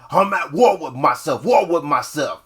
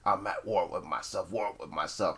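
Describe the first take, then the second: First: It is said aggressively, with more energy. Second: It is said calmly, with little energy.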